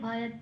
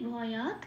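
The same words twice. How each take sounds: First: The final t is said softly and half-voiced. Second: The final t is said fully with a vowel. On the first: The speaker calls it right. "একটু মিলিয়ে softly একটু বলে দিতে হবে" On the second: The speaker calls it wrong. "ভটা পূর্ণরূপে উচ্চারিত করছি"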